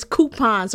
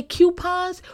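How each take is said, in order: First: Coupons said as "koo-pons", no y glide; right way to say coupons. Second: Coupons said as "kyoo-pons" with a y glide; mock the "kyoo-pons" coupons; wrong way to say coupons. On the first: Correcting the audience: coupons is "koo-pons". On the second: Mocking people who say coupons as "kyoo-pons". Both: Shown as a demonstration. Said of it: "that's not how you say coupons".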